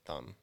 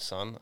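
First: The word starts with a lisped th sound. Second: The word starts with a clear s sound. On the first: The speaker calls it wrong. "I couldn't say S's. ... I would say thun" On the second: The speaker calls it right. "instead of son"

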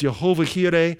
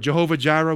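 First: The name is pronounced with Hebrew sounds. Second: The name is pronounced with English sounds. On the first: "In Hebrew, it's" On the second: "we say in English"

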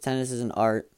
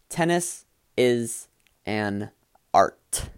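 First: It is said in an unclear, mumbled way. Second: It is said in a clear, distinct way.

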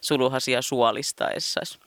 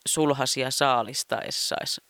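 First: It is said in Savo dialect. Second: It is said in standard Finnish. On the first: "Niin mä oon pitkään puhunut" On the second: "joka niin kuin suomen kielellä on"

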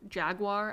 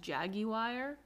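First: It is said with an American accent. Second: It is said with a British accent.

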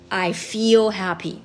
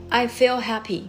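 First: The vowel in feel is long. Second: The vowel in feel is short. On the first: The speaker calls it right. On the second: The speaker calls it wrong.

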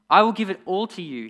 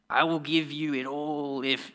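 First: It is read in a normal voice. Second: It is read in a strange put-on voice.

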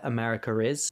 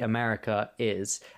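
First: An R sound links the two words. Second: No R sound links the two words. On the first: This is the British way of saying it. "we would say America is a country and we've added in an R there" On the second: This is the American way of saying it. "whereas they would say America is"

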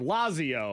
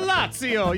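First: The name is said with a plain English accent. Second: The name is said with an Italian accent. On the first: The speaker calls it wrong. "So if I say Lazio or Lazio" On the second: The speaker calls it right. "But if I say it"

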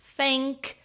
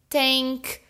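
First: It begins with an F sound. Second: It begins with a T sound. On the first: "somzão forte de F" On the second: "falar bem o som de T"

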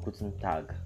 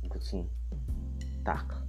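First: Tag ends with a voiced G sound. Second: Tag ends with a voiceless K sound. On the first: The speaker calls it wrong. "So it's not guten Tag" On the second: The speaker calls it right. "The G sounds like K"

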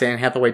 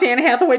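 First: It is said in a plain, normal voice. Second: It is said in a put-on prospector voice.

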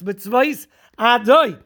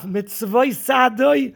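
First: The two words are kept separate. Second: The final s joins onto the next word. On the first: The speaker calls it right. "it's mitzvois adoi" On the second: The speaker calls it wrong. "It's not sadoi"

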